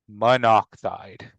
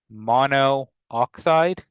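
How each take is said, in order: First: The two O sounds merge into one. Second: Two O sounds are said in a row. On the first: The speaker calls it right. "is what we would say" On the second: The speaker calls it wrong. "that sounds a little weird"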